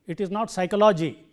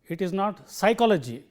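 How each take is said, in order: Both takes have the same delivery.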